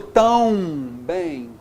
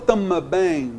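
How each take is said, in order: First: The first syllable is a nasal diphthong. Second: The M is voiced with an extra vowel after. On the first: "Eu falo tão bem? Não" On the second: "Eu falo tama bem? Não"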